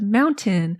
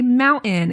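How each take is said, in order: First: The middle T is clearly and fully pronounced. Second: The middle T is swallowed, not clearly released. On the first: "instead of mountain" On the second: "how I say mountain"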